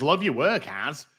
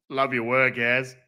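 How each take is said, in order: First: Said in the usual way. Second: Put-on Australian accent, evenly pitched; casual mock-Australian voice; Aussie accent. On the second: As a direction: read it out in a light Aussie accent. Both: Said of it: "We've got to do the Aussie accent".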